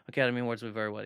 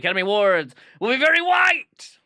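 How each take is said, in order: First: It is said flatly, without added inflection. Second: It is said dramatically, with strong inflection. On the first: The speaker calls it wrong. "I can't just go" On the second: The speaker calls it right. "I gotta add that in"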